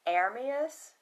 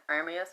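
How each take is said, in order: First: Aramis said as "AIR-mee-us", first syllable open and clear; mother's pronunciation. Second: Aramis said quickly as "ER-mee-us", the first vowel flattened and r-coloured; flat country way. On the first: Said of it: "pronounce his name Aramis". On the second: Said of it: "I got that flat Southern accent". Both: Shown as a demonstration.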